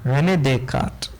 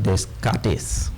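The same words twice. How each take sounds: First: René Descartes the French way, Descartes as day-KART; French pronunciation. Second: Teacher mocking a common misreading, Descartes with every written letter sounded; mispronounced Descartes. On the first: Teacher correcting the name for students, French pronunciation. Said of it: "That's French". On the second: Teacher showing students how some people say it, mispronounced. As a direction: say Descartes as spelt, sounding the middle s and the ending. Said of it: "Some people pronounce it". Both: Shown as a demonstration.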